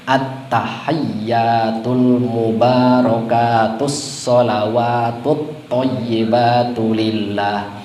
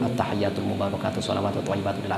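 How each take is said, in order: First: It is recited carefully with doubled consonants held. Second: It is recited quickly with doubled consonants dropped. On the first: The speaker calls it right. "Harus pakai syiddah, harus benar gitu" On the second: The speaker calls it wrong. "cepat-cepat buru-buru"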